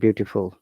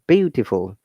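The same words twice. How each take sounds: First: The first vowel is cut short. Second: The first vowel is held longer. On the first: The speaker calls it wrong. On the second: The speaker calls it right.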